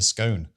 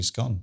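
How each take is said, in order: First: The vowel sounds like the one in cone. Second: The vowel sounds like the one in gone. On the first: It matches how the word is spelt. "I've always called it a pine cone because that's how it's kind of spelt" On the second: It is what people actually say. "you just do scone"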